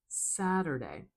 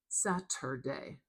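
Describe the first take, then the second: First: The middle T sounds like a soft, quick D. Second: The middle T is a crisp, released T. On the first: "I'm making it more like a dull D sound" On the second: "with a true T"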